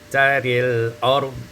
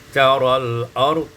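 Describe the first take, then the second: First: The vowel after r leans toward e. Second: The vowel after r is an open a. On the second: "difathahkan ra"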